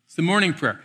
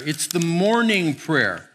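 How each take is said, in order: First: Said in the usual way. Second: "morning" drawn out and stressed, slow; slow, weighty repeat of "morning"; slow emphasis on morning. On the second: Shown as a demonstration. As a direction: lean on "morning", let the line slow.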